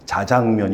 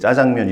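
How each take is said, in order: First: The first consonant is plain and soft. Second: The first consonant is tense and hard. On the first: This is the accurate pronunciation. "자장면 이렇게 정확하게 발음을 해주셨는데" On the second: This is how the students read it. "저희는 이제 짜장면 이렇게 읽었는데"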